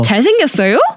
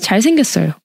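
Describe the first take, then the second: First: The pitch rises at the end. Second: The pitch falls flatly at the end. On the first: Asking whether he is good looking. "If you want to raise it as a question" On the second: He is just good looking, as a fact. "And the full stop would be"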